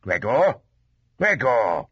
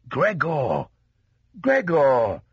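First: Father's mild warning call; short, admonishing repeat of the name. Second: Father's raised, calling voice; father calling through the door, falling at the end; crying out. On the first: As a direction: say the name as a warning, first rising, then falling. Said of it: "in a warning tone". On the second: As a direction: call the name out insistently, pitched up. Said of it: "he cried". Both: A narrator's reading.

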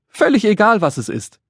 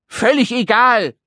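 First: Said in the usual way. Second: High, indignant little man's squawk; screeched protest. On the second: Acted. Little man rejects the joy of waiting, screeching. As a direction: squeal it out in a huff. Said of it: "kreischte der Kleine".

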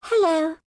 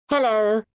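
First: Hello squeaked much higher and louder; very high piped hello. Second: Put-on high, louder child's Hello; piped hello. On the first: Acted. Second little girl greeting, piping very high. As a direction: pipe it even higher, tiny child. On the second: First little girl greeting the sisters, piping. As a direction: pipe it like a small girl. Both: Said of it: "piped the two children".

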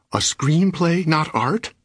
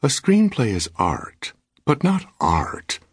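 First: Much higher, indignant rising question on "not art"; husband crying out in offended disbelief, higher. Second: Slow, higher, coolly weighing "not art"; wife calmly lecturing her husband, slow, pitched up; calm reply. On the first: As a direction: fling "screenplay" back in disbelief, pitched way up. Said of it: "I cried". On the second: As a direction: answer with unruffled, slow superiority. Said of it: "Her completely calm reply". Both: A narrator's reading.

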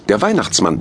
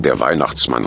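First: Higher-voiced first Santa; the higher of two Santas; calling out as Santa. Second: Lower-voiced second Santa; the lower of two Santas; calling out as Santa. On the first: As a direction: announce yourself in a higher voice. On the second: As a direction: echo the announcement in a lower voice. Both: A narrator's reading. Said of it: "riefen die beiden wie aus einem Mund".

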